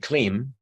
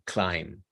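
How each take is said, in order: First: The vowel is a short 'ih' sound. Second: The vowel is a full long 'eye' sound. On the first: The speaker calls it wrong. "he gets permission to say Klim" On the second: The speaker calls it right. "the I sounding like a full vowel I"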